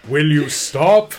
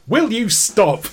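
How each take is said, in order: First: It sounds menacing and ominous. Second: It sounds mildly annoyed and exasperated.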